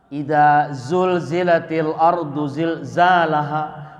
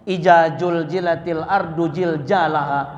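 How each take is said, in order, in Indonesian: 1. Bunyi z tetap dibaca sebagai z. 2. Bunyi z berubah menjadi bunyi j.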